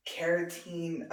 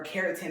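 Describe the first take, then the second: First: "keratin" said slowly, last syllable stretched; drawn-out pronunciation. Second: "keratin" said shorter, last syllable not stretched; quicker alternative pronunciation. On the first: Vlogger unsure of the word, "keratin" slowly drawn out. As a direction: draw out the end of "keratin". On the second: Vlogger offering another way, "keratin" said short. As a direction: say "keratin" briskly, with a short ending. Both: Shown as a demonstration. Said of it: "however you say it".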